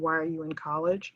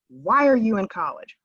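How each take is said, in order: First: It is asked in a gentle, caring tone. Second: It is asked in a sharp, accusatory tone. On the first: The asker wants to help the student find their purpose. The speaker calls it right. "caring, concern" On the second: The asker doubts the student belongs there. The speaker calls it wrong. "Someone read that with a very different tone"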